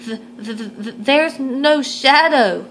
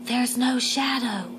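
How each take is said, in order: First: Stammering, higher and slow; nervous squeak. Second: Soft, slow whisper into an ear. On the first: Gregory announcing to the crowd, scared stammering squeak. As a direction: stutter it out in stage fright. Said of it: "he squeaked". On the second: Greta telling Gregory in his ear, hushed whisper. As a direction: breathe it secretly to him. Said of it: "Greta whispered into Gregory's ear". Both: Acted.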